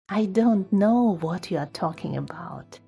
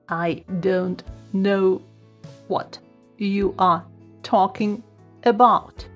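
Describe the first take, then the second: First: It is said in a happy voice. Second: It is said in a robotic voice. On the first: "happy voice" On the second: "Then robot voice"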